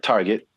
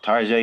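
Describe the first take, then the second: First: The word is said in a plain English way. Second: The word is said in a fancy, French-like way. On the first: It is the uncivilized way to say the name. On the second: It is the refined way to say the name.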